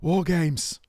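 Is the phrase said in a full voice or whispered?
full voice. It is said aloud in a full, strained voice. "then my voice wants to cut out"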